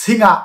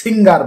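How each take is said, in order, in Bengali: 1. শব্দটি r ধ্বনি ছাড়া শেষ হয়। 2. শব্দটি r ধ্বনি দিয়ে শেষ হয়। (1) "ব্রিটিশরা এটিকে সিঙ্গা বলে থাকে" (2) "আমরা এটাকে সিঙ্গার বলে থাকি"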